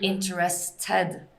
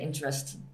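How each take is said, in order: First: The final ted syllable is fully pronounced. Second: The final ted syllable is not fully pronounced. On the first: The speaker calls it right. "Ted you pronounce" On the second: The speaker calls it wrong. "you don't say interested"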